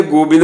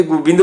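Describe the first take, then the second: First: ਗੋਬਿੰਦ with a long "go"; ਗੋਬਿੰਦ said "go-bind" with an open o; hora reading. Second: ਗੋਬਿੰਦ said "gu-bind" with a short u; aunkar reading. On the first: Teacher contrasts the two vowel readings, o version. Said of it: "ਹੋੜਾ ਉਚਾਰਨ ਕਰਾਂਗੇ". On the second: Teacher contrasts the two vowel readings, u version. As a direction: say ਗੋਬਿੰਦ as "gubind". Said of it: "ਔਂਕੜ ਉਚਾਰਨ ਕਰਾਂਗੇ". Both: Shown as a demonstration.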